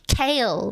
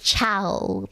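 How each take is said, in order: First: The name sounds like the vegetable kale. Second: The name rhymes with 'how'. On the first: It is read the way others said it should be. The speaker calls it right. "apparently C H A O L is pronounced kale, like the like the vegetable kale" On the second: It is read the way it is written. The speaker calls it wrong. "Because I pronounced it Chow, like it's written"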